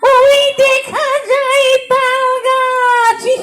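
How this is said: It is recited in a spooky ghost voice. A ghost is reciting it. "পেতনি তখন এই আবৃত্তি করবে কি করে বলেন তো?"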